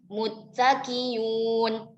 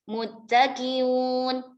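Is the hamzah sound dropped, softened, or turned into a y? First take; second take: y sound; softened. First: The hamzah is replaced by a y sound. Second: The hamzah is softened between the two vowels. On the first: "Biibdalil hamzah ya'an" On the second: "bitashilil hamzati baina-baina"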